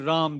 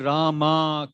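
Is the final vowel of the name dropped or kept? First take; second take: dropped; kept. First: It is said the North Indian way, final vowel dropped. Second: It is said the South Indian way, final vowel kept.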